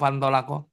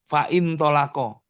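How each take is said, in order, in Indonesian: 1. Vokal setelah fa dihilangkan dan digabung. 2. Vokal setelah fa dipertahankan sebagai suku kata.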